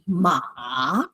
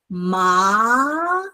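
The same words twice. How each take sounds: First: The pitch dips down then rises again. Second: The pitch rises long to a high end. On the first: "Third tone is basically uh, a, a, a V" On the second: "So ma is the second tone"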